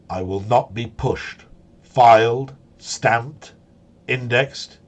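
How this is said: It is read in a put-on character voice.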